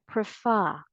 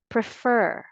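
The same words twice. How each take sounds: First: "prefer" as prih-FAH, final r dropped; British pronunciation. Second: "Prefer" as prih-FUR, final r sounded; American pronunciation. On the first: Teacher offering the British alternative, "prefer" as prih-FAH. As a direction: stress an open FAH ending in "prefer". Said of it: "if you want the British English pronunciation". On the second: Teacher asking say this one more time, American "Prefer", prih-FUR. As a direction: stress the second syllable of "Prefer", keep the r. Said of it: "American English". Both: Shown as a demonstration.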